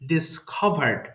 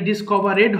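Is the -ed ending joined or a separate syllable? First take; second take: joined; separate. First: The ending is joined, with no extra syllable. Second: The ending is said as an extra syllable. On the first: The speaker calls it right. "আমরা ডিসকভার্ড বলবো অবশ্যই" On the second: The speaker calls it wrong. "এটা ডিসকভারেড হবে না কিন্তু"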